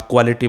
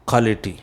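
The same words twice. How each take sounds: First: क्वालिटी as "kwality"; wrong pronunciation. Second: क्वालिटी as "kholity"; no W in क्वालिटी, KHO first; right pronunciation. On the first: Teacher echoing pupils' error, क्वालिटी as "kwality". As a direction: KW glide in क्वालिटी. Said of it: "बोलते हो". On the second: Teacher correcting pupils, क्वालिटी as "kholity". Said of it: "उसे बोलना है". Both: Shown as a demonstration.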